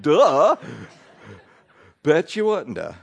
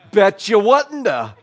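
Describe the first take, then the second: First: A mild sarcastic repeat. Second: Loud, high, slow sarcastic jab; mock them with exaggerated agreement; snapping back at the woman who judged the family. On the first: Retold or imitated. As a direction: roll your eyes through it. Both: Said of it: "you just wanna be so sarcastic".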